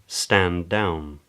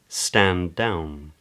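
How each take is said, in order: First: A single D is held briefly. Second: A single D is held briefly.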